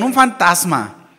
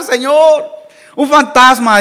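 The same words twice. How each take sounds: First: Said in the usual way. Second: Loud, higher cry of alarm; frightened shout. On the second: Acted. Disciples in the boat crying out at a figure on the water, loud frightened shout. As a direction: yell it out like you have just seen a ghost. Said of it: "empezaron a gritar".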